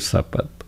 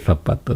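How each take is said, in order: First: The word begins with an s sound. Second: The word begins with a non-s sound. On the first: "they say zapato" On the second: "they don't say zapato"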